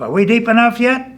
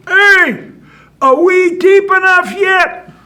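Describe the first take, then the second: First: High, loud call from down below; raised, high-pitched bullfrog holler. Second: Very high, full-voiced holler; drawn-out high yell for attention; far-off shout. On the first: Acted. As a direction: holler the question up out of a hole. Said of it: "the bullfrog hollers up". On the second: Bullfrog shouts from deep grave.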